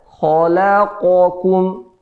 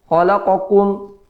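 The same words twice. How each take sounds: First: The q sound is slightly drawn out. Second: The q sound is cut short. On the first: The speaker calls it right. "yang betulnya khalaqakum" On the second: The speaker calls it wrong. "ya kita pendekkan"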